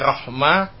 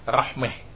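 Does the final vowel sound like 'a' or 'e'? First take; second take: a; e. First: The vowel before the final h sounds like 'a'. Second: The vowel before the final h sounds like 'e'.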